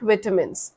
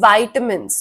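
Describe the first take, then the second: First: The first syllable sounds like 'vi'. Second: The first syllable sounds like 'vai'. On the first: The speaker calls it wrong. "विटामिन्स नहीं होता" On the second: The speaker calls it right. "वाइटामिन्स होता है"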